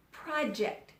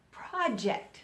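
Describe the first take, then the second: No difference in how they are said.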